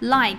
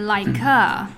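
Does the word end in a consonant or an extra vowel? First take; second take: consonant; extra vowel. First: The word ends cleanly on the final consonant. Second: An extra vowel sound is added at the end. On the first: The speaker calls it right. "我们就会把like 说成like a" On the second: The speaker calls it wrong. "说成like a"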